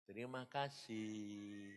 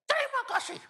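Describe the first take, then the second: First: Soft, slow "Terima kasih", barely voiced; hushed, drawn-out "Terima kasih"; quiet thanks. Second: "Terima kasih" yelled far higher and louder; all-out shout of "Terima kasih"; shouted thanks. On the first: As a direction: say "Terima kasih" softly and slowly, resigned. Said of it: "terus kamu bilang". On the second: Retold or imitated. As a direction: scream "Terima kasih" with everything left. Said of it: "saya teriak".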